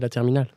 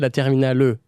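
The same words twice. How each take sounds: First: The final E is silent after the L. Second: The final E is sounded as a vowel. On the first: The speaker calls it right. "You don't pronounce it" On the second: The speaker calls it wrong. "You don't say la terminale"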